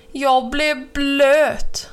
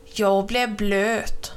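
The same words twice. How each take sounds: First: Raised, very drawn-out wail of protest; slow, emphatic squawk of grievance; indignant complaint. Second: Slow, drawn-out grumble at usual pitch; mild, dragging grievance; understated complaint. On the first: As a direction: stretch each word out in outrage. Crow splashed by huge bellyflop. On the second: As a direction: stretch the complaint out without raising it. Crow complains, slow but restrained. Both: A narrator's reading.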